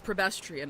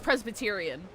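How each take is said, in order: First: The 's' comes later, after 'Prebe'. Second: The 's' comes right after 'Pre'. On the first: The speaker calls it wrong. "I pronounce it as Prebestrian" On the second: The speaker calls it right. "I know it's Presbyterian"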